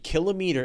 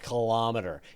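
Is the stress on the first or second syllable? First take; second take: first; second. First: The stress is on the first syllable. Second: The stress is on the second syllable. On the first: It follows the pattern of kilogram and kiloliter. The speaker calls it right. "It should be kilometer" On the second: This is how Canadians usually say it. The speaker calls it wrong. "and yet we say kilom- kilometer"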